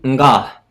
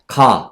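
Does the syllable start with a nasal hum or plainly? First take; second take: nasal hum; plainly. First: A soft nasal hum comes before the syllable. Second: The syllable starts plainly with no nasal hum. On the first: The speaker calls it right. "일본어는 응, 응가, 응가, 응가예요" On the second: The speaker calls it wrong. "한국어는 이것만 있잖아요"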